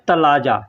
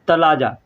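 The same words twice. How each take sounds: Both takes have the same delivery.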